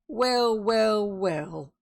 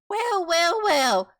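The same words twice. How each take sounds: First: It is said in the normal voice. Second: It is said in a high piping voice.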